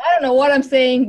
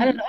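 First: Higher and much louder, laughing at herself; a loud embarrassed burst; sheepish exclaim. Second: Said in the usual way. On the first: Real, not acted. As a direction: blurt it out, self-mocking. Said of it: "but that's what I'm saying".

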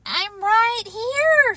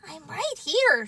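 First: High, drawn-out answer; reassuring call. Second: Raised pitch at ordinary volume; small voice. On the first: Frog answering Toad's cries at bedside, high drawn-out call. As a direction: sing it out slowly, up high. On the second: Tiny Frog answering from the theater, small higher voice. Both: Acted.

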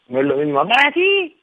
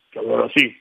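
First: Bright raised-pitch take of "así"; higher tone. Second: "que hablar así" dropped much lower. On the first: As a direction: show the high version of the line. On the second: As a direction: sink the voice down on "así". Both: Shown as a demonstration. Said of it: "El tono de voz".

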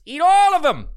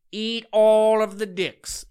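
First: High, loud yell at the dancers; shouted insult. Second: Said in the usual way. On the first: Real, not acted. Podcaster yelling at TikTok dancers, loud and high. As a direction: blast it out, fed up.

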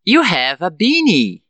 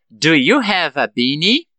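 First: Slow, "beanie" falling; affirmative statement. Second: "beanie" rising at the end; question intonation. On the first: Teacher prompts students to transform it, slow falling statement. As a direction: state it slowly, down at the end of "beanie". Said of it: "Eu falo a frase na afirmativa". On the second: Teacher gives the answer after practice, rising question. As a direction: ask it, lifting up on "beanie". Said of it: "com a entonação de pergunta". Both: Shown as a demonstration.

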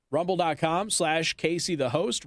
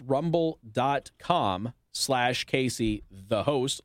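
First: Said in the usual way. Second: Slowed down and lower, spelling out the web address; slow, low repeat of the web address; slow, deliberate repeat. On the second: Shown as a demonstration. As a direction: read the address again slowly so listeners can write it down.

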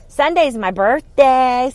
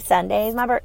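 First: Slow, louder, every word leaned on; drawn out and proud, raising her voice a little; emphatic announcement. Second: Said in the usual way. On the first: Real, not acted. Telling listeners her birthday is Sunday, slow and emphatic.

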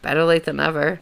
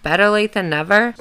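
First: Said in the usual way. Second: Higher, louder sing-out with a rising end; odd lilting delivery. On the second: Real, not acted. Podcaster reacting to her letter finally clicking, odd high lilt. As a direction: lilt it up oddly, louder than usual. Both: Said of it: "I don't know why I said it like that".

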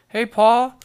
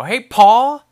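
First: Loud, high call with a lift on Paul; demo yell. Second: Loud, high call up to the house; yelling up to dad. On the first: Shown as a demonstration. Showing viewers how to call his dad, loud high yell. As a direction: belt out Paul's name, rising. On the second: Retold or imitated. Son shouting up to his dad at the lake house, loud high call. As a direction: shout it up the stairs with a rising end. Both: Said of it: "that's how you gotta say it".

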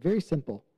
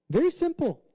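First: Said in the usual way. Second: "Very simple." said much higher, leaning hard on "Very"; emphatic repeat. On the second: Shown as a demonstration. Preacher to congregation, insisting "Very simple." with a high push. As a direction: punch "Very simple." up high to drive it home. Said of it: "Don't make it more complicated".

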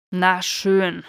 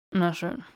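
First: Na schön burst out louder, falling; exasperated giving in. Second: Said in the usual way. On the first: Acted. Draco finally giving in to Theo, loud and exasperated. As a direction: throw up your hands and give in. Grudging admission, said twice.

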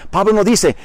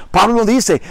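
No difference in how they are said.

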